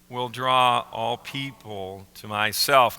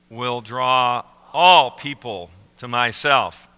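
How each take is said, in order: First: The word 'all' is said plainly. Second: The word 'all' is emphasized.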